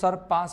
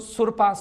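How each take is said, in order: First: The first vowel is an unrounded uh sound. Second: The first vowel is a rounded oo sound. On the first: The speaker calls it right. "इसको सर पास बोलेंगे" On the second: The speaker calls it wrong. "इसको सुर पास नहीं बोलेंगे"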